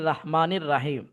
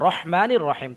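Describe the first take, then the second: First: The first vowels are drawn out as long 'raa'. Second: The first vowels are short 'ra'. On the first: The speaker calls it wrong. "আমি যদি এখন রা পড়ি, সঠি- সঠিক হবে? ... কখনো শুদ্ধ হবে না।" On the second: The speaker calls it right. "রহমানি হবে।"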